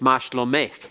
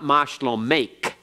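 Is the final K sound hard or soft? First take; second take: soft; hard. First: The final K is softened, almost breathy. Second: The final K is a hard closing sound. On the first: The speaker calls it right. "It's softened a little bit" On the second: The speaker calls it wrong. "It's not mashlomek"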